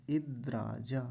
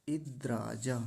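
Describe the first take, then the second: The two takes are said the same way.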